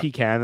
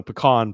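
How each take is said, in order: First: "pecan" said PEE-can, with a short "a" as in "can". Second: "pecan" said puh-KAHN, with a broad "ah". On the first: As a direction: give "pecan" the old PEE-can pronunciation. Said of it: "I used to say pecan". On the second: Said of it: "is the proper pronunciation". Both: Shown as a demonstration.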